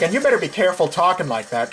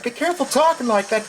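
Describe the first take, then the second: First: Said in the usual way. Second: Higher and fast, stress on talking; higher, fast repeat. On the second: Real, not acted. Repeating the warning to his friend, higher and fast.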